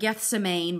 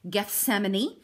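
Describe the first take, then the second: First: The name is said the way it looks spelled. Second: The name is said in the standard way. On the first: The speaker calls it wrong. "it looks like Gethsemane, but that's not how you say it" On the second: The speaker calls it right. "It's Gethsemane"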